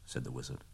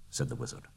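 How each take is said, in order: First: Softer, hushed aside; whispered narration tag. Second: Said in the usual way. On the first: A narrator's reading. Narrator slipping in the speaker tag, hushed. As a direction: tuck the tag away in a whisper.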